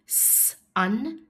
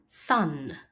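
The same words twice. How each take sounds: First: "sun" split into "sss", pause, "un"; sounded out. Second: Said in the usual way. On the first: Shown as a demonstration. Teacher inviting pupils to help, sun split as s, un. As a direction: hold the S of "sun" apart. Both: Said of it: "Help me say".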